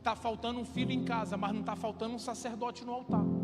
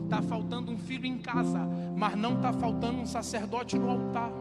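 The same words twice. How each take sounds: First: It is said at a normal pace. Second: It is said slowly and calmly.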